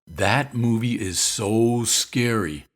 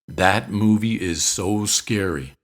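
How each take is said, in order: First: The word 'so' is drawn out long. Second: It is said slowly, with pauses between words. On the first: "you can stretch out the word so" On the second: "the slower you speak, the more emphatic you sound"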